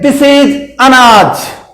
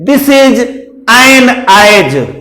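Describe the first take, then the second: First: The article is weak and runs into the next word. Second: The article is full and said apart from the noun. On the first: "मिलाकर बोलेंगे" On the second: "अलग अलग में impression डालने के लिए"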